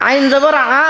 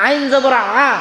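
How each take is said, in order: No difference in how they are said.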